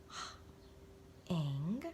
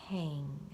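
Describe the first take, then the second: First: The word is said slowly in separate sounds. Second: The word is said quickly as one blended unit. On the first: "Let's read it" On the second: "Read it fast"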